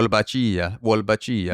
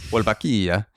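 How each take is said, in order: First: "Wolbachia" Spanish-style, with "ch" as in cheese; Spanish pronunciation. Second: "Wolbachia" Italian-style, with a hard k; Italian pronunciation. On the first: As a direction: say "Wolbachia" as wol-ba-CHEE-a. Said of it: "the Spanish pronunciation". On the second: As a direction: say "Wolbachia" as wol-ba-KEE-a. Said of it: "It's also Italian, too". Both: Shown as a demonstration.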